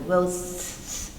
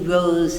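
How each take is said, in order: First: The word ends in a hissing s sound. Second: The word ends in a buzzing z sound. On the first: "we can't say it as an air S. It's unpronounceable" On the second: "z, kind of choking through that, totally unpronounceable"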